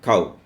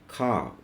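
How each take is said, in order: First: The vowel is short and abrupt, without a glide. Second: The vowel glides smoothly from one sound to another. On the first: The speaker calls it wrong. "In English, such abrupt sounds are not there. So it is not cow" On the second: The speaker calls it right. "It is cow"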